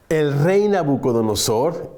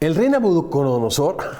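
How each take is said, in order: First: The name is said at a slower pace. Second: The name is said at a quicker pace.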